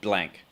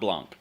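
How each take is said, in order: First: The surname is said in a plain English way. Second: The surname is said in a French way. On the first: The speaker calls it right. "we're getting to know Mackenzie Blank" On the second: The speaker calls it wrong. "that's kind of French"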